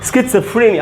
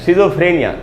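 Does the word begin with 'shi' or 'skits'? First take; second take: skits; shi. First: The word begins with a 'skits' sound. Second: The word begins with a 'shi' sound. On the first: The speaker calls it right. "इसको हम पढ़ेंगे स्किट्सफ्रेनिया" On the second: The speaker calls it wrong. "शिजोफ्रेनिया नहीं होगा दोस्तों"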